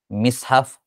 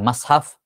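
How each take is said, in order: First: The first vowel is a front i. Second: The first vowel is an open a.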